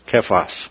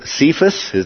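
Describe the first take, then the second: First: The name is said in its Aramaic form. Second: The name is said in its anglicized form. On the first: "the Aramaic is Kephas" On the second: "That's our pronunciation"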